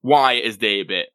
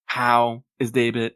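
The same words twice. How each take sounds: First: WHY punched at the front, falling away after; stress on WHY. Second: HOW drawn out slowly, the rest following after; slow, pointed question weighted on HOW; stress on HOW. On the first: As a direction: hit the word "why", then let "is Daebit" fall. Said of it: "You may people ask". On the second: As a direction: stretch and lean on the word "how". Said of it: "does everyone ever really ask". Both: Acted.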